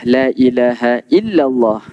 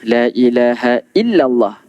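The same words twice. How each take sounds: The two takes are said the same way.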